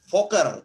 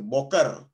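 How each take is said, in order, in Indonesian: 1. Kata ini diawali dengan bunyi v. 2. Kata ini diawali dengan bunyi b. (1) "Jadi harusnya kita baca foker" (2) "selamat pagi itu boker tov"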